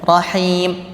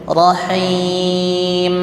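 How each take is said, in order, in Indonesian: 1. Huruf m di akhir tidak ada dengung hidung. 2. Huruf m di akhir berdengung panjang lewat hidung. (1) "tidak ada gunnahnya sama sekali" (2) "Rasakan ada keluar dari hidung"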